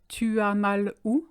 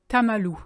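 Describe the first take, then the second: First: Each word is said fully and separately. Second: The words are shortened and run together.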